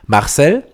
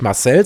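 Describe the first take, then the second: First: "Marcel" as "MACHsel", stressed on the first syllable; hard East Belgian r. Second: Said in the usual way. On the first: Shown as a demonstration. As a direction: punch MACH in "Marcel" with a hard ch. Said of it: "das harte R muss da rein". („Marcel“ ostbelgisch, vorne betont mit hartem ch) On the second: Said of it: "sagt zum Beispiel auch nicht Marcel".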